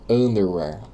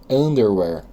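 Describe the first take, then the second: Both takes have the same delivery.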